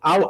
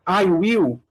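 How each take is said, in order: First: It is said as one short contracted syllable. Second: It is said as two full separate words. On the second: "I will pode ficar ao"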